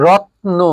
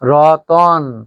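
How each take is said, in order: First: The t runs straight into n, no vowel. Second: A vowel is inserted between the t and n. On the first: "ত এর পরে কোনো স্বরধ্বনি উচ্চারিত হয়নি" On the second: "ত এর সাথে একটা অস্বরধ্বনির আগমন হয়"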